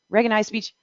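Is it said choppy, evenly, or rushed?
rushed. The syllables are run together too quickly. The words may be transcribed as something else. The speaker calls it wrong.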